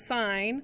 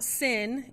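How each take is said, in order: First: It has a long 'eye' vowel, like 'sign'. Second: It has a short 'i' vowel, like 'sin'. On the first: The speaker calls it right. "it is sign" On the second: The speaker calls it wrong. "it is not sin"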